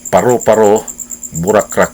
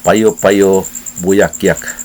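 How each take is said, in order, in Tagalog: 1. Ang bawat r at l ay binibigkas na r. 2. Ang bawat r at l ay binibigkas na y. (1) "iya hapong pag-pronounce" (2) "taga Surigao man ang contestant"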